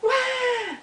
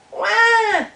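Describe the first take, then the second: First: Very high wah, held like an echo; echoed wail. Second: Very high, loud cartoon bawl; mock wail. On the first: Acted. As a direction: answer as a distant echo of a bawl. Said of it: "All the way from across the pond". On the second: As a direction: bawl like an upset little beaver. Beaver wails across the pond.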